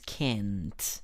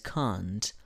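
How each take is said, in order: First: It is said with an American accent. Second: It is said with a British accent.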